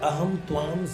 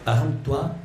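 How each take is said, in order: First: The second word ends with an m sound. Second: The second word ends without an m sound. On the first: The speaker calls it wrong. "मैं गीता जी के एक श्लोक का गलत उच्चारण करता था" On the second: The speaker calls it right. "त्वा है। ... त्वाम नहीं है।"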